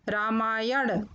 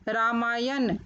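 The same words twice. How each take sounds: First: Said in the usual way. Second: रामायण said "raamaayan" with dental न; mispronounced रामायण. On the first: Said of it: "फिर उनका शुद्ध उच्चारण". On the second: Shown as a demonstration. Teacher showing children the error, रामायण said with न. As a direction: end रामायण on न instead of ण. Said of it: "अशुद्ध शब्द मैंने रखे हैं".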